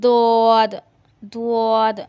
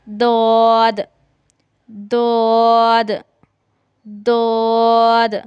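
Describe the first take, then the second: First: It has rounded lips and a 'wa'-like sound. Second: It has an unrounded, lateral, emphatic sound. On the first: The speaker calls it wrong. "उआ उआ जैसी आवाज नहीं निकालनी, या होंठों को ऐसे गोल नहीं करना। ... ये तरीका गलत है।" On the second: The speaker calls it right. "जुबान के बगली किनारे को ... उसके साथ लगाना है।"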